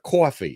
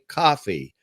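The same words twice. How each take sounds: First: It is said with a thick New York accent. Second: It is said with an overcorrected, general accent. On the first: "instead of coffee" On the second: "I now say coffee"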